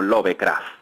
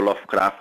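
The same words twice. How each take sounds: First: The name is pronounced in a Spanish way. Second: The name is pronounced in an English way. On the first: "en España lo conocemos como Lovecraft" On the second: "ahora digo Lovecraft porque me, me, me dijeron que no pronunciaba bien"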